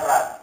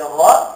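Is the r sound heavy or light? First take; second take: light; heavy. First: The r sound is light and thin. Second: The r sound is heavy and full. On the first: "Itu tafkhim dan tarkhim" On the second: "Itu tafkhim dan tarkhim"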